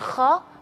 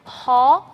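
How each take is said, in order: First: The breath is held back and stops. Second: The breath flows out freely through the sound. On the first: The speaker calls it wrong. "bukan kho" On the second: The speaker calls it right. "tapi kho"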